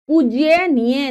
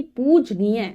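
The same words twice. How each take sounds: First: "पूज्यनीय" with an extra Y, pooj-ya-neeya; mispronounced word. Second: "पूजनीय" with no Y after J; correct pronunciation. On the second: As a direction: say pooj-neeya for "पूजनीय". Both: Shown as a demonstration. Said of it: "पूज्यनीय नहीं".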